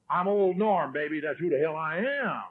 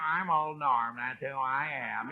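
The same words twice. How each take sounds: First: Acted swagger, introducing himself to his wife; cocky self-introduction. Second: Softer, mocking echo of the husband; wife's mocking mimicry. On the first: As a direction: introduce yourself like you own the place. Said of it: "then you introduce yourself to her". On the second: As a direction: mimic his boast back at him, quietly. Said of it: "how they mimic it".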